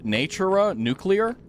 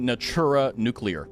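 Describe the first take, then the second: First: The name has a normal English pronunciation. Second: The name has a Latinized pronunciation. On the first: "the normal English would be" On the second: "if we're going from the Latinized way"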